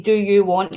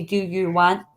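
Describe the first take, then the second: First: "Do you want" in standard English vowels; standard English pronunciation. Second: "Do you want" said as Scots "dae ye want"; Scots pronunciation. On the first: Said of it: "So instead of saying". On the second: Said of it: "he'll say". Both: Shown as a demonstration.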